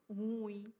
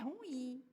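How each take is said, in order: First: The stress falls on the opening "ru" part. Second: The stress falls on the final "im" part. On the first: The speaker calls it wrong. "e não ruim" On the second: The speaker calls it right. "É in, in"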